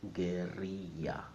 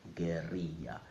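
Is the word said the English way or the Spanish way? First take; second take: Spanish; Spanish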